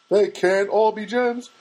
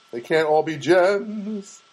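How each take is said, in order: First: "all" pitched up and punched; stress on all. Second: Slow, with the weight on "gems"; stress on gems. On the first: Shrugging off a dud joke, punching "all". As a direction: hit the word "all" and ease off after it. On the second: Shrugging off a dud joke to his audience, leaning on "gems". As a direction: drag it out and land hard on "gems". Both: Shown as a demonstration.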